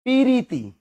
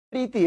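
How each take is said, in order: First: High পিরিতি, opened out as pi-ri-ti; pi-ri-ti for পিরিতি, pitched up; rustic pronunciation. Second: Said in the usual way. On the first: Shown as a demonstration. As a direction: say পিরিতি village-style in three syllables. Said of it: "একটু গ্রাম্য". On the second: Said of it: "এটাকে কি বলে?".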